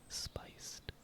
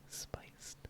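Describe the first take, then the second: Both takes have the same delivery.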